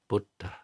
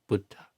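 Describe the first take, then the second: First: It is said with a puff after d. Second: It is said with a puff after d.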